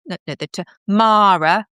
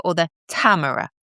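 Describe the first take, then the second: First: "Tamara" said ta-MAH-ra, stress on the second syllable; "Tamara" with the weight on MAH: ta-MAH-ra. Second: "Tamara" said TAM-uh-ra, stress on the first syllable; "Tamara" with the weight on TAM: TAM-uh-ra. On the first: Host asking the listener's name, "Tamara" said ta-MAH-ra. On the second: Host asking the listener's name, "Tamara" said TAM-uh-ra. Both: Shown as a demonstration. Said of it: "the second syllable".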